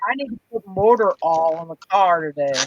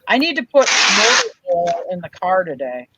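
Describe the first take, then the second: First: Oil is said like 'all', with no 'i' sound. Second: Oil is said with a full 'oi' sound.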